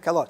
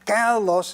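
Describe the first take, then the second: First: The stress is on the second syllable. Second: The stress is on the first syllable. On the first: This is the adjective. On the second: This is the noun meaning beauty.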